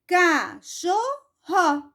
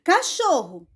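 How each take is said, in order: First: "cachorro" in three slow, separate sounds, higher pitched; "cachorro" broken up as ca, chor, ro; split into syllables. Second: Said in the usual way. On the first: Shown as a demonstration. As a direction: say "cachorro" one syllable at a time. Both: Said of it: "saiu três sons diferentes".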